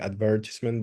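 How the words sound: It is pronounced in a British way. "the way I pronounce it, which is the British word, the British way"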